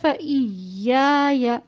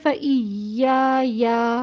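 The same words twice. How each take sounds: First: The final syllable is short, one beat. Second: The final syllable is stretched out long. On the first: The speaker calls it right. "जैसे" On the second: The speaker calls it wrong. "हम इसको ऐसे नहीं पढ़ेंगे"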